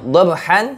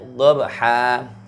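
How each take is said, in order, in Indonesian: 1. Kata ini diakhiri dengan bunyi n. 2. Kata ini diakhiri dengan vokal terbuka panjang. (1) "awalnya dhabhan" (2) "dibaca dhabha"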